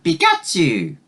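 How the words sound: It sounds like a friendly greeting.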